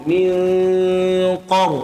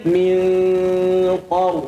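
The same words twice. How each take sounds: No difference in how they are said.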